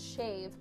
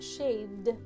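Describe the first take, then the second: First: The word ends without a d sound. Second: The word ends with a d sound. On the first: It is how locals say it. The speaker calls it right. "it's shave" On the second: It marks the speaker as a tourist. The speaker calls it wrong. "not shaved, E D, you'll sound like a tourist if you say that"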